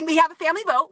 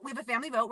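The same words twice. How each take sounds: First: Louder, higher, bursting out excitedly. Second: Softer, calmer repeat of the same line; softer restatement. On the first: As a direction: blurt it out, a little giddy. Laughing, stammering into the announcement. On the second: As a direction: say it again, quietly settling it. Repeats it, settling down. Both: Real, not acted.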